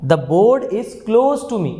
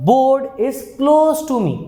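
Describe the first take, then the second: First: Slow, deliberate model sentence; slow dictation. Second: Slow, drawn-out model sentence; slow dictation. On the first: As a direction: say it slowly so students can copy. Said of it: "मैं क्या कहता हूँ?". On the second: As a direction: spell it out slowly for the class. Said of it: "अब मैं बोलता हूँ". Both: Shown as a demonstration.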